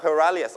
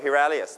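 First: First hilarious as "huh-larious"; hilarious with a schwa first vowel; American-style hilarious, reduced first syllable; American pronunciation. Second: Second hilarious as "he-larious"; hilarious with a clear "he" start; British-style hilarious, full first vowel; British pronunciation. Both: Shown as a demonstration. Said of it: "ได้ทั้งสองนะครับ".

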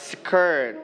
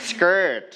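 First: "skirt" with a puffed, aspirated k; mispronounced skirt. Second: "skirt" with k unaspirated, like a hard g; correct skirt. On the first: Teacher shows what some people say, mispronounced skirt. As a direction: say "skirt" wrongly as s-khirt. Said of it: "บางคนอาจจะออกเสียงว่า". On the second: Teacher models K after S, correctly pronounced skirt. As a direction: say "skirt" as s-girt, no puff on k. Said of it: "จะ sounds like กอไก่". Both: Shown as a demonstration.

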